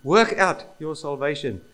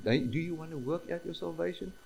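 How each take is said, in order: First: Louder, firm order landing hard on "Work out"; emphatic command. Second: Softer, lightly offered question; mock invitation. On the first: Preacher voicing Paul's command to believers, emphatic command. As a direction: give it as a command, hitting "Work out". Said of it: "it's very emphatic. It's not a request". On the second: Preacher showing what the command is not, mock invitation. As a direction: ask it as an optional invitation, no force. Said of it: "It's not an invitation". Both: Shown as a demonstration.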